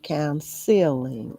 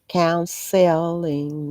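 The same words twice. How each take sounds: First: The later syllables are reduced and run together. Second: The later syllables are pronounced fully and crisply. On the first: The speaker calls it wrong. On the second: The speaker calls it right. "I'm going to do the hard pronunciation of the latter part of this word"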